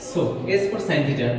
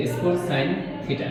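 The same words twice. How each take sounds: First: Very slow, every word spaced out; slow dictation. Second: Slowed, each word set apart; slow dictation. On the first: Teacher dictating the first formula, very slowly. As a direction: spell it out slowly so students can write. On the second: Teacher repeating for students to copy, slowed. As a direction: say it slowly again for writing down. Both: Shown as a demonstration. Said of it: "লিখো যে".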